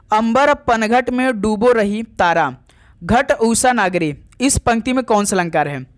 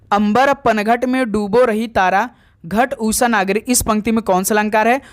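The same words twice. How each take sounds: The two takes are said the same way.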